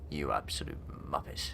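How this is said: It is said in a stern, annoyed tone. The listener is in trouble. "it's a different tone of voice. It's like, okay, uh, I'm in trouble"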